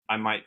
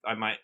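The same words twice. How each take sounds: The two takes are said the same way.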